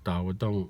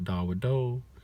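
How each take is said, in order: First: The word ends abruptly with a glottal stop. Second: The word ends with a drawn-out final vowel. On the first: The speaker calls it right. "you're left with that glottal stop sound" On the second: The speaker calls it wrong. "it's not a spread out"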